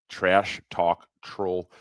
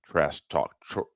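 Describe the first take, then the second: First: "Trash talk troll" spelled out slowly, word by word; slow, deliberate reread after a stumble; slow careful read. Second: Said in the usual way. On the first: Real, not acted.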